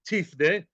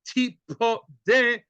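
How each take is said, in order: First: It is said with two syllables. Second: It is said with three syllables. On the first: You should redeem. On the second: You shall be redeemed.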